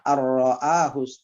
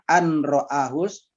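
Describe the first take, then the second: First: The n merges into a doubled r. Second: The n is pronounced before the r. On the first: This is how it is read aloud. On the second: This is how it is written.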